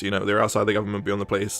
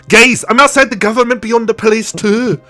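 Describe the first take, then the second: First: "outside the government, beyond the police" said low and soft, tossed off; mock police, muttered. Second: "outside the government, beyond the police" called out higher and louder, slowing at the end; mock pizzeria guy. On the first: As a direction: mumble it like a bored cop passing the job on. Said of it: "Yeah, they're like". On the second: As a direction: ham it up like a proud pizza man announcing himself. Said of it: "Dennis from the pizzeria goes".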